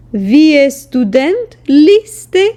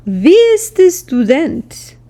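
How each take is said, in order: First: „Вие студент ли сте?“ said slowly with the pitch rising at the end; slow teaching demo, lift the end of сте; rising question tune. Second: Said in the usual way. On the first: Shown as a demonstration. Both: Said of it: "the intonation slightly goes up".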